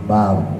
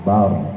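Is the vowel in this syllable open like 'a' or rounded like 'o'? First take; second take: open a; open a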